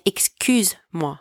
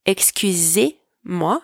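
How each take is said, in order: First: "excuse-moi" with no E, "excuse" closing straight into "moi"; clear demo. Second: "excusez-moi" with the final E of "excusez" sounded clearly; slow clear demo. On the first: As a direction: clip "excuse-moi" with no vowel before moi. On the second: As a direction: stretch "excusez-moi" so the é is heard. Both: Shown as a demonstration. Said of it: "Notice the difference here between".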